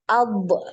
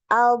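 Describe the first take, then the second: First: The final consonant ends with a bouncing release. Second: The final consonant is held with flowing sound. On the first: The speaker calls it wrong. "banyak yang memantulkan" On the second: The speaker calls it right. "yang benar adalah dialirkan suaranya"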